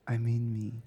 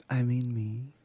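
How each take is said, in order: Both takes have the same delivery.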